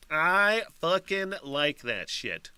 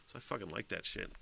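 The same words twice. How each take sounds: First: Slow, drawn-out I, higher pitch; emphatic repeat. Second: Low, very soft aside; quiet aside. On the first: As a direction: stretch "I fucking like that shit" out slowly, word by word. Emphatic repeat of the same line. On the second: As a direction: say it under your breath, low. First, offhand take of repeated line. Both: Real, not acted.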